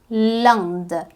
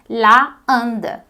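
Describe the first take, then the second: First: The article vowel is dropped before the word. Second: The article vowel is kept before the word. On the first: The speaker calls it right. "Você vai dizer l'Inde" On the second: The speaker calls it wrong. "a gente não pode dizer la Inde. Tá errado"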